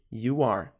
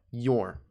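First: Said in the usual way. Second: "your" as a single syllable; contracted "your", one smooth word; reduced contraction. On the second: Shown as a demonstration. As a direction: merge you and are into "your". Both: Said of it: "é a contração de".

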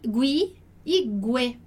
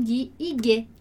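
First: Gui e gue said slowly, as hard Italian gi and ge; teacher modelling gui e gue in Italian; correct Italian sounds. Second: Gui e gue with the Portuguese gw sound, as the mistake to avoid; teacher showing the wrong gui e gue. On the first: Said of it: "e não gui e gue". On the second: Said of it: "e não". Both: Shown as a demonstration.

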